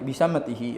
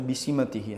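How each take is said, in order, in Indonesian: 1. Vokal setelah s pertama adalah a. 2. Vokal setelah s pertama adalah i.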